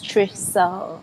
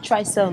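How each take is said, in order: First: The first syllable does not sound like 'try'. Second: The first syllable sounds like 'try'. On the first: The speaker calls it right. "It's Trisel" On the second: The speaker calls it wrong. "don't say try. It's not Trisel"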